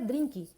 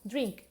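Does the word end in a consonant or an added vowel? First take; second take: added vowel; consonant. First: An extra vowel is added after the final k. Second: The word ends cleanly on the k consonant. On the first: The speaker calls it wrong. "eu não entendia o que era drink" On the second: The speaker calls it right. "quando é verdade uma palavra em inglês, drink"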